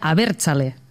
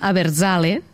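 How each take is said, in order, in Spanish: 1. La z es una sibilante sorda vasca. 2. La z es un sonido sonoro catalán. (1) "pronunciat a la manera èuscara seria abertzale" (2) "en català diem abertzale"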